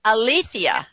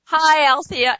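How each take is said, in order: First: "Alethea" in four syllables, uh-LEE-thee-uh; corrected name. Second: "Althea" said as two syllables, AL-thee-uh; "Althea" with the middle "e" dropped, AL-thee-uh; wrong name. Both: Real, not acted. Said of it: "It's Alethea".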